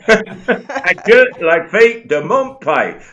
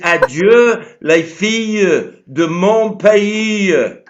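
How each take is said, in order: First: It is said with a London accent. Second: It is said with a French accent. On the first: This is how someone else said it. "you carry on doing it in your London accent" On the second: This is the more poetic way to say it. "it's much more poetic than that"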